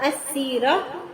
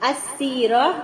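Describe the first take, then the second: No difference in how they are said.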